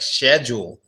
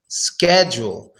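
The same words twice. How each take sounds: First: It is said with a British pronunciation. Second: It is said with an American pronunciation. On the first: "in British English or some other English they actually say schedule" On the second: "But we just say schedule"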